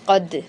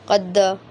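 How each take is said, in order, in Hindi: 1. अंतिम d में हल्की सी गूंज वाली उछाल होती है। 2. अंतिम d के बाद एक पूरा स्वर आता है। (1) "कद कद ठीक है" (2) "कलखला को इतना बढ़ा दें कि उसको ज़बरी बना दें"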